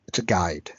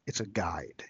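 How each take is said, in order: First: Whispered. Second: Said in the usual way. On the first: Shown as a demonstration. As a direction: whisper "It's a guide." for emphasis. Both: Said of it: "It's not a manual".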